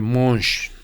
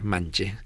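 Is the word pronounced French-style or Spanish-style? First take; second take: French-style; Spanish-style. First: It is said with a French nasal 'on' vowel. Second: It is read with a plain Spanish 'a' vowel. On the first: The speaker calls it right. "pero se pronuncia monche" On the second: The speaker calls it wrong. "suena como mancha"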